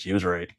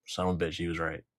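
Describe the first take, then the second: First: Said in the usual way. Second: Soft, low, grudging mutter; muttered aside. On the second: Acted. Admitting the conspiracy was right, muttered softly. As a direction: mutter it under your breath.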